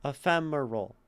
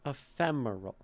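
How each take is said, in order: First: "ephemeral" with FEM and the roll stressed. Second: "Ephemeral" with FEM stressed. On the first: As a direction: double iamb rhythm. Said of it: "And a roll". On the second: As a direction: hit the second syllable. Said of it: "fem is definitely very stressed". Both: Shown as a demonstration.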